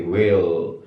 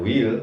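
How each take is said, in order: First: Slow 'will' with short 'ih', near wehl; correct lax vowel. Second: 'will' with tense 'ee', like weel; wrong vowel. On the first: Teacher corrects the reading for students, correct lax vowel. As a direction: draw out 'will' with a lowered lax i. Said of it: "tapi will". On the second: Teacher shows students how not to say it, wrong vowel. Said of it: "Bukan will". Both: Shown as a demonstration.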